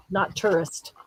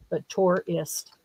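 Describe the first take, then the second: First: "tourist" said as TOO-rist; the rejected "tourist"; wrong version. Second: Slow "tourist" said as TOR-ist; the chosen "tourist", drawn out; right version. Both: Shown as a demonstration. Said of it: "you pronounce it tourist".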